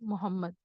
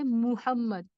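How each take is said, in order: First: The first vowel is an 'o' sound. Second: The first vowel is an 'oo' sound. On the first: The speaker calls it wrong. "लोग मोहम्मद बोलते हैं" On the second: The speaker calls it right. "वो है मुहम्मद"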